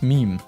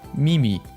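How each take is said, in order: First: It is said in its usual form. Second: It is altered to rhyme with sashimi.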